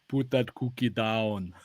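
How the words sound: It is said in a put-on foreign accent.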